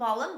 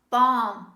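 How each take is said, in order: First: The L sound is pronounced. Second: The L sound is silent. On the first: The speaker calls it wrong. "This is not balm" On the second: The speaker calls it right. "This is balm"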